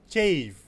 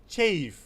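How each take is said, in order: Both takes have the same delivery.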